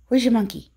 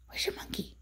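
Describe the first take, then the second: First: Said in the usual way. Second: Whisper. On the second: Real, not acted. Same question whispered.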